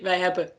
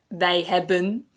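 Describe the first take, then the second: First: The final N is dropped. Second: The final N is clearly pronounced. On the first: This is how it is said in everyday speech. "normally I will just say" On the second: This is the proper teaching form. "we're trying to teach you proper Dutch, so we say"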